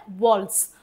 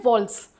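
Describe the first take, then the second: First: वॉल्स said lower and slowly, as "vols" with the t silent; careful teacher demo of वॉल्स; pronunciation demo. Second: Said in the usual way. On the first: Shown as a demonstration. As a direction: model the word वॉल्स carefully. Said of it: "इसको pronunciation कैसे होता है?". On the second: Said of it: "इसको बोलते हैं".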